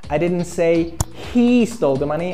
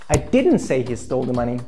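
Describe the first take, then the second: First: The stress falls on the word he. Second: The stress falls on the word didn't. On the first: A different person stole it. "I said another guy stole the money" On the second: The claim is denied outright. "That's totally wrong. I deny it"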